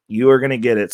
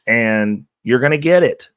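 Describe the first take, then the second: First: "You are gonna get it" with ARE stressed and raised. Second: Said in the usual way. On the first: Real, not acted. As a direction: hit "are" hard with a falling tune. Repeats with emphasis.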